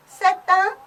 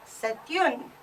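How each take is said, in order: First: Un linked onto c'est, higher and louder; French c'est un. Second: Une softer, t linked, n clearly sounded; French c'est une. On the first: Teacher demonstrates c'est un liaison, higher and louder. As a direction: run c'est into un with the T. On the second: Teacher contrasts c'est une with c'est un. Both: Shown as a demonstration. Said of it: "That is how you pronounce".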